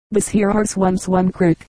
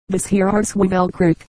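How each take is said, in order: First: "arse once one crick" run together in mountain dialect. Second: "Wevell" as one blurred name in mountain dialect; mountain dialect, repeated. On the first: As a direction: say "once one" as a blurred local name, "crick" for creek. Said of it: "the answer was". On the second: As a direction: say "arse Wevell crick" with local "crick" for creek. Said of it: "the words sounded like". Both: A narrator's reading.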